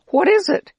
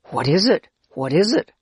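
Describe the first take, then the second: First: "What is it?" said high and loud as a name; named with emphasis. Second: Said in the usual way. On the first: Retold or imitated. Man tells the children the food's name, "What is it?" high and loud. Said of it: "we simply called it". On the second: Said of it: "We all asked each other".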